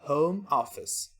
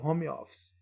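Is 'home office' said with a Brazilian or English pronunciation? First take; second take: English; Brazilian. First: It is said with English sounds. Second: It is said with Brazilian Portuguese sounds. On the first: The speaker calls it right. "Em inglês é home office" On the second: The speaker calls it wrong. "não fale home office"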